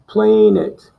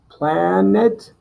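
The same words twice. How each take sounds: First: The first vowel is said long. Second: The first vowel is said short. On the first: "and then the long sound" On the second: "You're gonna do the short sound first"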